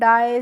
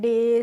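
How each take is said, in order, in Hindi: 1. स्वर 'eye' जैसा फिसलता है। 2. स्वर सादा 'eh' है। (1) "इस तरीके से नहीं प्रोनाउंस करना है" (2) "इस तरीके से हम इनको पढ़ेंगे"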